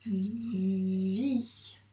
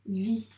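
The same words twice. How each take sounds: First: "vie" with a long buzzing v gliding into i; sounded-out syllable. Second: Said in the usual way. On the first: Shown as a demonstration. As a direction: stretch the v in "vie", then open into i. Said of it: "donc on doit le dire, les sons".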